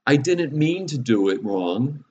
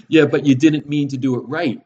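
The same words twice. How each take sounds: First: Put-on higher, slow, drawn-out child's excuse; protesting child. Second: Loud, high-pitched mock kid retort; seven-year-old voice. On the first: Father imitating his kids' excuse after repeated mistakes, protesting. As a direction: plead innocence like a caught kid, pitched up. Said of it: "I get the thing; best seven-year-old voice". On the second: Father mimicking his child in reply to the excuse, seven-year-old voice. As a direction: throw it back like a seven-year-old, louder and higher. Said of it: "in my best seven-year-old".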